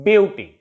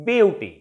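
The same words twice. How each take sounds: No difference in how they are said.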